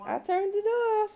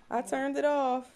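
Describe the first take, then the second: First: High, sweet sing-song reassurance. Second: Said in the usual way. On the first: Real, not acted. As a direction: lift it way up to coax a smile. Repeating to baby.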